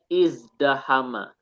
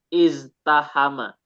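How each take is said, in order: First: The consonant after the z is a d sound. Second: The consonant after the z is a t sound. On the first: This is the form after the sound change. "Dimasukkan ifta'ala menjadi izdahama" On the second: This is the underlying original form. "Asalnya iztahama"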